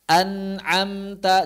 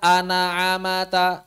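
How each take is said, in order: First: The m is vowelless, going straight into t. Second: A short vowel is added after the m. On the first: The speaker calls it right. "huruf yang sukun" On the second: The speaker calls it wrong. "jangan sampai baca an'amata"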